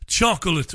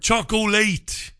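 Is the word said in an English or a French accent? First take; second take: English; French. First: The word is said in a plain English accent. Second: The word is said in a French accent.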